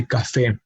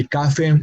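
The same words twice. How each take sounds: First: Café with the stress on its final syllable, ca-FÉ; stress on last syllable. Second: Café mis-stressed on its first syllable, CA-fe. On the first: Teacher shows what we say, café stressed as ca-FÉ. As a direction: land firmly on the end of café. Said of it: "emphasis on the last syllable". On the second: Teacher shows what not to say, café stressed as CA-fe. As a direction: say café as CA-fe, weight up front. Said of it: "We do not say café". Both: Shown as a demonstration.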